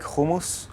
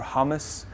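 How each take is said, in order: First: It is said in a Hebrew-style pronunciation. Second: It is said in a local Dutch-style pronunciation. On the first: This is how the speaker's own culture says it. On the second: This is how people locally usually say it.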